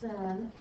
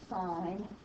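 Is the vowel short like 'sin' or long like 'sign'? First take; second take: short; long. First: It is said with a short 'i' vowel. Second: It is said with a long 'eye' vowel. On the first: The speaker calls it wrong. "you never say it's sin" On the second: The speaker calls it right. "it is always pronounced sine"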